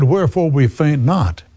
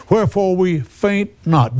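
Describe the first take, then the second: First: Said in the usual way. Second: "Wherefore" said higher and falling, with weight; emphatic repeat. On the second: Shown as a demonstration. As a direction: lift "Wherefore" up high and let it fall. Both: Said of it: "What did you say, [name]?".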